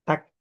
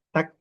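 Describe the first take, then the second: Both takes have the same delivery.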